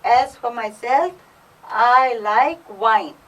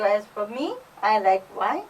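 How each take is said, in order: First: "As for myself" set apart, then "I like wine" louder and drawn out; stress on myself. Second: Said in the usual way. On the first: Shown as a demonstration. Teacher explaining the emphatic pronoun, stressed "myself" and slow "I like wine". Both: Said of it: "I'm stressing on myself".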